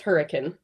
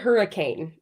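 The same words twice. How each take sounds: First: It is said the local, British-derived way. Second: It is said the common, usual way. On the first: It names the town as locals say it. "it's pronounced hurricane, which actually is a British holdover" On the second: It names the ordinary storm word. "the word hurricane"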